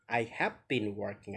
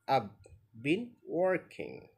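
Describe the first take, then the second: First: The words I and have are said separately. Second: I and have merge into one short syllable.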